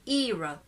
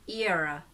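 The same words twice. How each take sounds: First: The first vowel is a long ee sound. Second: A schwa follows the ee before the r. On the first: "That's e, long sound" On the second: "ear, the schwa there, then ra"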